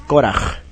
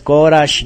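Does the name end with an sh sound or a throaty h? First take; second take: throaty h; sh sound. First: The name ends with a throaty h sound. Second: The name ends with an sh sound. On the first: The speaker calls it right. "Al final como J española" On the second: The speaker calls it wrong. "No es Korash ni nada de eso"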